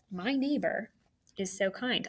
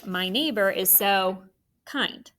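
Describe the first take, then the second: First: "My neighbor" then a pause, then "is so kind" softer; phrased with a pause. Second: Slowly, "My neighbor is so kind." as one unbroken scoop; no break between "neighbor" and "is". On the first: Teacher modeling a phrase for students, with a pause after "neighbor". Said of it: "I like that way that I just said out loud". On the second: Teacher showing students an unbroken phrase, slow and smooth. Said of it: "Or you could say". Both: Shown as a demonstration.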